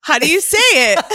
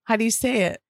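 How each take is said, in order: First: Higher, louder, hammed-up protest; mock outraged shout. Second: Said in the usual way. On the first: Shown as a demonstration. To her teasing co-host, a mock-indignant loud shout. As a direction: throw the question back loudly in mock outrage. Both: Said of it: "can you say pale again?".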